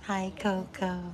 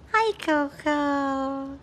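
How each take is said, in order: First: Said in the usual way. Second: Higher, drawn-out hi to the dog. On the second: Real, not acted. Owner greeting her dog in a slow high coo. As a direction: coo it slowly like to a puppy.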